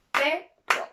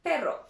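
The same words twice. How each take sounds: First: "perro" broken in two, pe, then ro; split into syllables. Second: Said in the usual way. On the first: Shown as a demonstration. Teacher showing learners two syllables, "perro" split as pe, ro. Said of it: "We have two syllables". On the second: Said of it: "two syllables".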